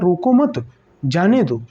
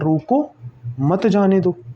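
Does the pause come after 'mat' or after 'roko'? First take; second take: after mat; after roko. First: There is a pause right after 'mat'. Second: There is a pause right after 'roko'. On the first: Do not stop the person; let them go. "लेकिन यही विराम अगर मैंने यहां पर प्रयुक्त कर दिया" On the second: Stop the person; do not let them go. "जैसे एक विराम मैंने पहले यहां लगाया, तो इसको मैंने पढ़ा"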